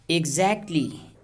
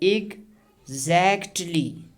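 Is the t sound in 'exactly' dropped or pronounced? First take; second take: dropped; pronounced. First: The t sound in the middle is dropped. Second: The t sound in the middle is pronounced. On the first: "we are going to drop it. Now see" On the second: "When we pronounce this t sound, it takes lot of effort"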